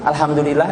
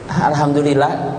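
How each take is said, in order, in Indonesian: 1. Diucapkan dengan nada cerah dan senang. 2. Diucapkan dengan nada berat dan gelisah.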